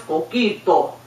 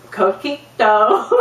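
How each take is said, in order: First: "Coquito" with pure Spanish vowels, falling; Spanish accent. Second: "Coquito" slow, rising, in an American accent. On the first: Acted. Relative demonstrating once more, "Coquito" in a Spanish accent. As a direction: say "Coquito" as a Spanish speaker would. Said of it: "Do you hear the difference?". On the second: Shown as a demonstration. Speaker mocking her own attempt, "Coquito" in a slow American accent. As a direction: stretch "Coquito" with American English vowels.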